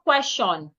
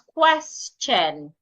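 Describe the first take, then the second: First: The middle consonant sounds like sh. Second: The middle consonant sounds like ch. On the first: The speaker calls it wrong. "So it is not question" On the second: The speaker calls it right. "the T and the I there makes the C H sound"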